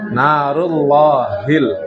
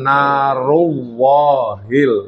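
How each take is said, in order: First: No extra u vowel is inserted in the word. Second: An extra u vowel is inserted in the word. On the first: The speaker calls it right. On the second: The speaker calls it wrong.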